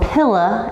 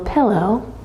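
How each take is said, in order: First: The word is said in a Texan accent. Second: The word is said in a plain accent.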